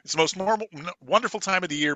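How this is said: It stops fully after 'year' before continuing. The speaker calls it wrong. "normally people go, ... Period. And you're invited"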